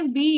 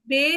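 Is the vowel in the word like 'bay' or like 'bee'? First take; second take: bee; bay. First: The vowel sounds like 'ee' in 'bee'. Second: The vowel sounds like 'e' in 'bay'. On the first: The speaker calls it right. "बी है" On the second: The speaker calls it wrong. "बे नहीं है"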